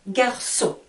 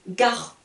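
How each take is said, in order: First: The middle consonant is an S sound. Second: The middle consonant is a K sound. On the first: "avec la cédille, j'entends le son S" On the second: "si j'enlève la cédille, le C avec le O, je vais entendre le son K"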